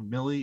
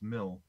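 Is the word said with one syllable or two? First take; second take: two; one. First: The word has two syllables, ending in an ee. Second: The word has one syllable, like mill. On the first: The speaker calls it wrong. "It's also not Millie" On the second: The speaker calls it right. "It's Mill"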